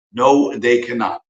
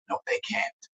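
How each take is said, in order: First: "No, they cannot" slowed right down, falling on "No"; deliberate emphatic no after the whisper; slow firm denial. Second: A sharp unvoiced whisper, much softer. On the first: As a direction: spell out "No, they cannot" word by word, final. Firm repeat of the rebuttal. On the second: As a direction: hiss the denial under your breath. Flat rebuttal after the mock quote. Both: Real, not acted.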